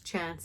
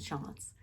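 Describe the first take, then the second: First: It is said with an American accent. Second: It is said with a European accent.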